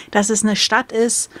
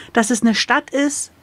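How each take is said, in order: Both takes have the same delivery.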